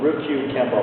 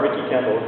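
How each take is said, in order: First: The first word sounds like 'Ryukyu'. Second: The first word sounds like 'Ricky'. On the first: The speaker calls it right. "I'm going to try to get that right" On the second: The speaker calls it wrong. "I'm going to ruin the first part"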